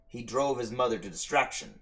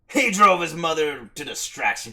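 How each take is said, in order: First: It is read in a plain, ordinary voice. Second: It is read in a put-on character voice. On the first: The speaker calls it wrong. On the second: The speaker calls it right.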